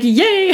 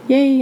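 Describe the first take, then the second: First: The word sounds lively and enthusiastic. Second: The word sounds flat and unenthusiastic. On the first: The excitement seems genuine. The speaker calls it right. "I should be like" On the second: The excitement does not seem genuine. The speaker calls it wrong. "That doesn't really sound sincere"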